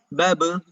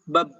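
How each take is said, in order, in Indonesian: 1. b di akhir dilepas dengan gema memantul. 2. b di akhir ditahan begitu lama sampai hilang. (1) "Jadi harusnya gimana?" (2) "tidak keluar saking ditahannya"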